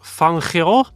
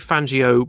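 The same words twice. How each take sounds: First: It is said with an Argentine Spanish pronunciation. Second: It is said in the common, Italian-style way. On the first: "it's more like Fangio, something like that in Argentine Spanish" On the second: "most people say Fangio"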